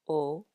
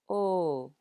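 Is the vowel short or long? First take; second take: short; long. First: The vowel is short. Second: The vowel is lengthened.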